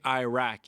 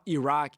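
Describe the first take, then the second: First: The first vowel sounds like 'eye'. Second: The first vowel sounds like 'ee'. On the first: The speaker calls it right. "we say Iraq" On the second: The speaker calls it wrong. "It's not Iraq"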